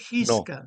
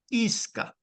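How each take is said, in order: First: It begins with a harsh throaty consonant. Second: It begins directly with a vowel sound. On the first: The speaker calls it wrong. "No se dice Gisca" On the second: The speaker calls it right. "se dice Isca"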